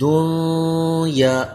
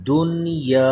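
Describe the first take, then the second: First: The n is held with a nasal hum. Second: The n is said plainly without a hum. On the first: The speaker calls it wrong. "इसको हमने दुनिया ऐसे नहीं पढ़ना, इसमें गुन्ना नहीं करना" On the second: The speaker calls it right. "बल्कि दुनिया"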